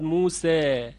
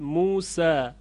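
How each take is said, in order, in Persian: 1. واکهٔ پایانی وسط a و e است. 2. واکهٔ پایانی یک a بازِ ساده است. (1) "این حالت اماله صغرا یا تقلیل هست" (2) "این فتح هست"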